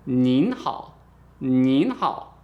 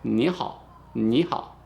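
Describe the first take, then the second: First: "nin hao" with long rising "nin", n held; slow, emphatic "nin hao"; stressed final n. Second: "Ni hao" with open rising "ni"; measured teaching "ni hao", low "hao"; informal greeting drill. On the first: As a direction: lean hard on the n of "nin". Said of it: "stress this n at the end". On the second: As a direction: model "ni hao" with no closing n. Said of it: "Let's try it again". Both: Shown as a demonstration.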